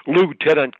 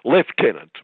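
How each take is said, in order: First: "Lieutenant" said as loo-TEN-ant; American pronunciation. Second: "lieutenant" said as lef-TEN-ant; English pronunciation. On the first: Retold or imitated. Commentator mocking a radio host's Americanised language, American pronunciation. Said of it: "Americanisation of our language by calling". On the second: Shown as a demonstration. Commentator giving the correction someone told the host, English pronunciation. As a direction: say "lieutenant" the British way, starting with "lef". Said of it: "told her the English pronunciation".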